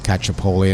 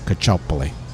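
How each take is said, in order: First: The name is said the anglicized way. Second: The name is said the Italian way. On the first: This is how the family came to be called locally. "one of her teachers just said Cacciapoli" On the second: This is how Italian speakers say the name. "anybody who's Italian would pronounce it as Cacciopoli"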